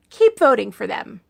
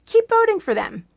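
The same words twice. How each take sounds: First: "Keep voting for them" said lower and deadpan; dry sarcasm. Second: Higher mock cheer on voting; sarcastic cheer pitched higher. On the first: Acted. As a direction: drop it flat and knowing. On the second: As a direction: sell "Keep voting for them" with a bright fake encouragement. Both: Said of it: "that was called sarcasm".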